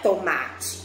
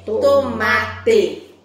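First: The final vowel is reduced and unclear. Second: The final vowel is clearly pronounced. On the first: The speaker calls it wrong. "Não é tomate" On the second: The speaker calls it right. "é tomate"

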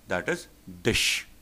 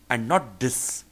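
First: The word ends with an sh sound. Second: The word ends with an s sound. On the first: The speaker calls it right. "the sound would be sh" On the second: The speaker calls it wrong. "would be pronounced as sh and not s"

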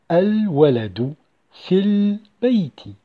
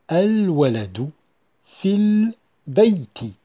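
Both takes have the same delivery.

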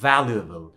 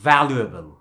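Both takes have the same delivery.

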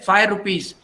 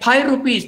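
First: Five begins with an f sound. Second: Five begins with a p sound. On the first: The speaker calls it right. "They can't say" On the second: The speaker calls it wrong. "They say"

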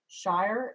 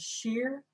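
First: The vowel is an 'eye' diphthong. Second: The vowel is a long 'ee' sound. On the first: This is the modern pronunciation. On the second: This is how it sounded in Chaucer's time.

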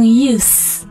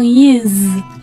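First: The word ends with a hissing s sound. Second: The word ends with a buzzing z sound. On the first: The word is used as a noun. "它作为名词的时候呢发音发成use" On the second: The word is used as a verb. "而作为动词用的时候呢发成use"

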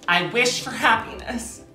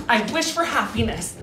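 First: It is said earnestly, with real feeling. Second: The same.

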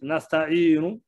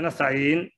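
First: The final short vowel u is pronounced. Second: The word ends on the consonant n. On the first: The speaker calls it right. "you have to read nasta'inu" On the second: The speaker calls it wrong. "Don't say nasta'in"

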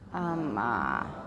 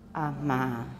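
First: The middle m is said with creaky voice. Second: The middle m is said with breathy voice. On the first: "Add creaky voice or laryngealization to intervocalic consonants" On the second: "Try to superimpose breathy voice or murmur onto intervocalic consonants"

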